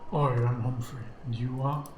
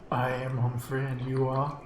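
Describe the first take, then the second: First: It is said in a Cockney accent. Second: It is said in a neutral accent.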